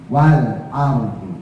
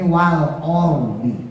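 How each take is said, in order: First: The vowel after the L sounds like open a. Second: The vowel after the L sounds like rounded o. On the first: The speaker calls it right. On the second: The speaker calls it wrong.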